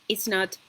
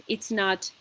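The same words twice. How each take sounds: The two takes are said the same way.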